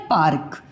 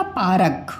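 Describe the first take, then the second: First: पार्क with a half र, pa-rk in two beats; right pronunciation. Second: पारक with a full र and an extra vowel, pa-ra-k; wrong pronunciation. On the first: Teacher giving the child the correct reading, पार्क. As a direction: say पार्क cleanly, the र sliding straight into क. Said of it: "हम क्या बोलते हैं?". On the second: Teacher showing a child the wrong reading, पारक split out. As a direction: spell out पारक as three beats, the mistaken way. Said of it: "ये तो wrong हो गया pronunciation". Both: Shown as a demonstration.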